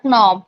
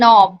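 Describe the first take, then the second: First: The initial K sound is pronounced. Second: The initial K sound is not pronounced. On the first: The speaker calls it wrong. "It's not a knob" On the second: The speaker calls it right. "It's a knob"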